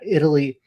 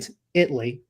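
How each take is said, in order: First: The middle vowel is pronounced in full. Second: The middle vowel is dropped from the word. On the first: The speaker calls it wrong. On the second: The speaker calls it right.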